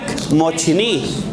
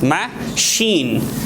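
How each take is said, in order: First: It is read as spelled, with a ch sound. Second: It has a sh sound and a long ee. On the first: The speaker calls it wrong. "if you look at this word, it seems like mochini" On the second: The speaker calls it right. "we should pronounce like this. ... It's sh. It's long. Long what? I"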